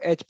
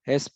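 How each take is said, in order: First: The letter is said without an initial h sound. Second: The letter is said with an initial h sound. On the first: This is how people in the speaker's region say it. "हम लोग इन अपने यहाँ पे एच को एच pronounce करते हैं" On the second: This is how people in South India say it. "South India में लोग एच को हेस प्रोनाउंस करते हैं"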